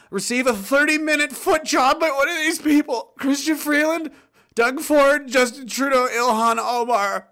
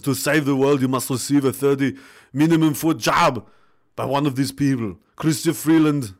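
First: High-pitched, agonised forced read; reading under duress. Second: Mock Austrian accent, like Arnold Schwarzenegger. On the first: Pretend. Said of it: "this is under duress". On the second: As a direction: read it out as an Arnold impression, Austrian accent and all. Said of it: "say his name in the Arnold accent".

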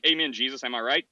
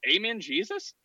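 First: Lightly voiced cheery churchgoer, confident; a hint of a simple believer, pleased with himself; dumb churchgoer. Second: Higher, tentative asking Amen, Jesus; a mock new believer unsure of the words; hesitant convert. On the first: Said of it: "who's just like". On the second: Convert tries the phrase.

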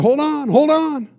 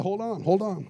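First: "Hold on, hold on" higher, louder and slower; urgent warning. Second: Said in the usual way. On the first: Retold or imitated. Pastor warns his companion to guard the bags, loud and urgent. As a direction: press the warning hard, drawn out.

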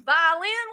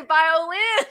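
First: "Violin" squashed to vy-lin, O dropped; Southern two-syllable "Violin", no O sounded; violin without the O. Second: "violin" in three syllables, sounding the O; violin with the O pronounced. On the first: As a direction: say "Violin" as vy-lin, a high, puzzled question. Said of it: "one place where I said violin". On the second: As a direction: say "violin" as vy-oh-lin, high and loud. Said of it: "You gotta say the O". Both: Retold or imitated.

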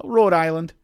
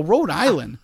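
First: Hint of a Rhode Island accent, higher and louder; imitated Rhode Island accent. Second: Higher, louder questioning echo; retold puzzled echo. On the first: Stranger answers where he is from, imitated Rhode Island accent. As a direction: lightly mimic a Rhode Island local. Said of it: "And he goes". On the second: Teller questions the stranger's answer, retold puzzled echo. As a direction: repeat it back in mock disbelief. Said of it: "And I go".

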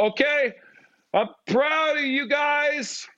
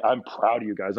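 First: Very high, drawn-out mock cheer; hammed-up falsetto-high proud shout; coming on strong. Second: Said in the usual way. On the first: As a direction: overdo it in a high, straining holler. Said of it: "I gotta come strong".

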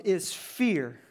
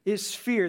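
First: "is fear" dito devagar, bem pesado; slow and weighty, dwell on "fear"; slow emphasis. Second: "Is fear" repeated with the weight on "fear"; stress on FEAR. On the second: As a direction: punch the word "fear" in the repeat. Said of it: "um, is fear". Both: Shown as a demonstration.

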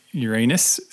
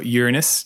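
First: Uranus, middle syllable stressed and rhyming with "rain"; Uranus as your-AY-nus. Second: Uranus, YOOR up front and a short unstressed middle; Uranus as YOOR-uh-nus. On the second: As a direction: say Uranus with stress on the first syllable. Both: Shown as a demonstration. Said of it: "depending how you like to say it".

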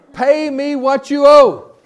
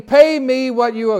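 First: Slow, much higher and louder threatening demand; acted-out demand. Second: Higher, louder demand for payment; demanding servant. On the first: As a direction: lean in and menace him, word by word. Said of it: "You wanna act this out a little bit". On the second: Acted. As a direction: grab him by the throat and demand it. Servant grabs debtor by throat.

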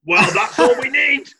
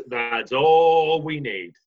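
First: High, loud, laughing. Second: Slow. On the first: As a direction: cry it out through a laugh. Laughing outburst at the idea. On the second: Slow repeat of the phrase. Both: Real, not acted.

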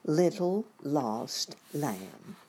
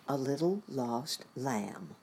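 First: "Little Lost Lamb" drawn out, very slow, "Little" stressed; very slow title. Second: "little" stressed, slow and falling; slow title read. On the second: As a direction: say "a little lost lamb" slowly, leaning on "little". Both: Shown as a demonstration.

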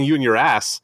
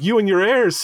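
First: "ass" replacing "heirs", laughing; "ass" said through a laugh; misheard as ass. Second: "heirs" said clearly as heirs, high; "heirs" in a lofty villain line; Zod quote. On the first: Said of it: "it sounds like he's saying". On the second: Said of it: "But it actually sounds like he's saying". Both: Retold or imitated.

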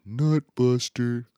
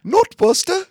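First: Higher, drawn-out mock heckle; imitating brother's dad. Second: Very high, loud, badly faked British; terrible British accent. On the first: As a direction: stretch it out like a dad calling at the TV. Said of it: "He said it like that". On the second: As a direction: shriek it in a hammed-up British accent. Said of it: "that's a terrible British accent".

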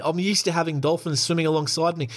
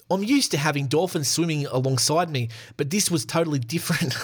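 First: A second mock New Zealand take; a Kiwi accent that comes out Australian. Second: A weak attempt at a Kiwi accent; a clumsy mock New Zealand accent. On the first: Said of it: "That's the same as an Australian accent there". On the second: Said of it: "let's do a Kiwi accent".

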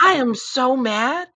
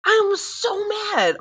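First: Mad. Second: Drawn-out mad wail pitched up high; mad, much higher. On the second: Mom venting about school days, high and slow. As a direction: stretch it out like a high, slow whine of outrage. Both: Real, not acted.

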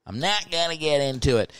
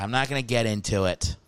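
First: NOT stressed a little higher; repeating it more firmly; firmer, higher repeat. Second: Said in the usual way. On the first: Real, not acted.

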